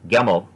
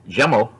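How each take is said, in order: First: It is said in Egyptian Arabic with a hard g. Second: It is said in Fusha with a j sound.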